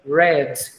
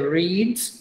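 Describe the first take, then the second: First: The vowel is short, like in 'red'. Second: The vowel is long, like in 'reed'. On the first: It is the past tense or participle. "o particípio e o passado se pronuncia red, como a cor vermelha" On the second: It is the present tense. "o presente é read"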